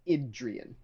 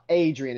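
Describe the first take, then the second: First: The name is said with a different first vowel. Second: The name is said like the familiar Adrian. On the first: The speaker calls it right. "It's Idrian" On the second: The speaker calls it wrong. "It's not Adrian"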